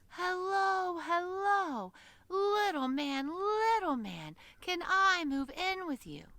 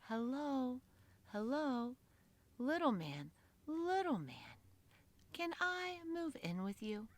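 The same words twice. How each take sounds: First: It is said very loudly. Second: It is said very quietly.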